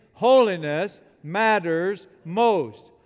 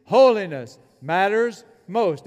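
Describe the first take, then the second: First: Loud, very slow and emphatic; like you mean it. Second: Chanted, loud, measured call for all to repeat; chanted, lead the room loudly, word by word. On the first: Preacher urges congregation to mean it, slow emphatic declaration. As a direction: drive each word home, loud and drawn out. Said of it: "Now say it like you mean it". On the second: Preacher asks congregation to say the motto, loud measured chant. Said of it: "Say it with me, please". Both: Shown as a demonstration.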